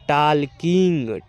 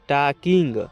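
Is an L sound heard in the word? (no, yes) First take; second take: yes; no. First: The L sound is pronounced in the word. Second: The L sound is silent in the word. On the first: The speaker calls it wrong. "टालकिंग नहीं पढ़िएगा" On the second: The speaker calls it right. "यहाँ पर जो एल है यहाँ पर silent रहेगा"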